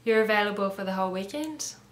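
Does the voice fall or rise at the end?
rise. The voice rises at the end. It is asked as a question. The speaker calls it right. "you have to raise your voice"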